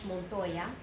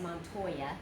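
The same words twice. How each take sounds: First: It is said with a Spanish accent. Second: It is said with an English accent. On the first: "but in Spanish" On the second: "In English you would have said"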